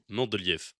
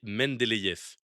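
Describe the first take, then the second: First: It uses the old, heavily French pronunciation. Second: It uses the newer French pronunciation. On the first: "c'est la translittération classique du russe, euh, bien francisée" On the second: "La nouvelle translittération"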